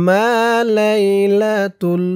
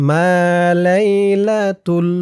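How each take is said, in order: Both takes have the same delivery.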